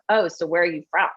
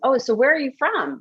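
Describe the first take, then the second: First: The question sounds cold and dismissive. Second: The question sounds warm and genuinely curious. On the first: The person does not belong here. The speaker calls it wrong. "the tone conveys a completely different message" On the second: The asker cares and wants to know the person. The speaker calls it right. "With curiosity"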